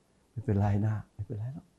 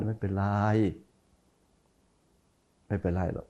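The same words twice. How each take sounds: First: Slow, soft and kind reassurance; soft forgiving. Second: Softer, lower kind reassurance; soft forgiving. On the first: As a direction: say it gently, letting it go. (พูดเบาๆ ช้าๆ อย่างให้อภัย) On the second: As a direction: say it gently as if truly forgiving. (พูดเบาๆ อย่างให้อภัยจริงใจ) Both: Shown as a demonstration. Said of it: "เสียงมันต่างกัน".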